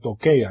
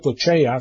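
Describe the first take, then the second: First: The middle consonant sounds like 'k'. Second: The middle consonant sounds like 'ch'. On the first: The speaker calls it right. "sino toqueia" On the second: The speaker calls it wrong. "no se pronuncia tocheia"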